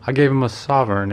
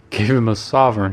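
First: Said in the usual way. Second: Mild shout of disbelief. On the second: A narrator's reading. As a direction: call it out, amazed. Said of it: "shouted Trevor".

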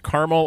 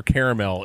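First: Caramel pronounced CAR-mul; two syllables in caramel, CAR-mul; two-syllable pronunciation. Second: Caramel pronounced CARE-uh-mel; three syllables in caramel, CARE-uh-mel; three-syllable pronunciation. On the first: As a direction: say caramel as CAR-mul, middle vowel dropped. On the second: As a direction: say caramel as CARE-uh-mel, middle vowel kept. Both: Shown as a demonstration. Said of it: "is it pronounced caramel or caramel".

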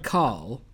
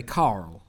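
First: Said in the usual way. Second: "Carl" split into two syllables, like Carol. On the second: Shown as a demonstration. Confessing how a friend's name comes out, "Carl" in two syllables. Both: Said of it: "I will often say Carl".

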